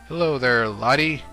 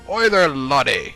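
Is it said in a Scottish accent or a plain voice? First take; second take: plain; Scottish. First: It is said in the speaker's plain voice. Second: It is said in a put-on Scottish accent.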